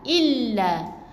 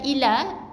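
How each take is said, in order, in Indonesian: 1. Bunyi l ditekan dan digandakan. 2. Bunyi l pendek dan tunggal. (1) "Jadi kena tekan" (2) "bukan illa"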